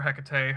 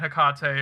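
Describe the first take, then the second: First: Hecate said HEK-uh-tay, first syllable stressed. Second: Hecate said heh-KAH-tay, middle syllable stressed. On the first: Streamer offering the other pronunciation, Hecate said HEK-uh-tay. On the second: Streamer naming a favorite couple, Hecate pronounced heh-KAH-tay. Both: Shown as a demonstration. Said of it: "however you wanna pronounce it".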